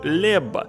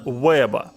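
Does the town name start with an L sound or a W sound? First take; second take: L sound; W sound. First: The name begins with an L sound. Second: The name begins with a W-like sound. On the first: The speaker calls it wrong. "в том самом фильме я называл его Лебба" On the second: The speaker calls it right. "как я правильно произношу сейчас название города Уэба"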